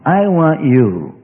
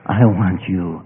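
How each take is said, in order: First: Stretched out slowly, yearning; slow tender longing. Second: Dropped low and soft, yearning; low tender longing. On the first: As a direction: draw each word out lovingly. Acted lovers' talk, slowed. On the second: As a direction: murmur it to a sweetheart. Acted lovers' talk. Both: Acted.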